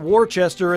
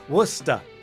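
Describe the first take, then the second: First: All the written syllables are pronounced. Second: The word is cut short to fewer syllables. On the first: The speaker calls it wrong. "That's not Worcester" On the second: The speaker calls it right. "And you got to say it like that"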